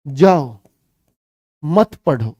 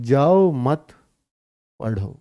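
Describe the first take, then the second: First: जाओ alone, long pause, मत पढ़ो joined; pause after जाओ. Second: जाओ मत joined, long pause, then पढ़ो; pause after मत. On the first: Teacher shows child's misunderstanding, pause after जाओ. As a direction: break straight after जाओ, keep मत with पढ़ो. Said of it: "ये बच्चे ने समझ लिया". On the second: Teacher gives father's intended meaning, pause after मत. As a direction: break only after मत, पढ़ो set apart. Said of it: "पिताजी ऐसे कह रहे हैं". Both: Shown as a demonstration.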